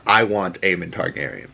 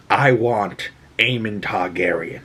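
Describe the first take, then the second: First: Said in the usual way. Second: Grim queen's line. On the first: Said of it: "her war plans are". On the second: Retold or imitated. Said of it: "she says the one and only line".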